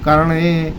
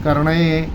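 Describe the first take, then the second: The two takes are said the same way.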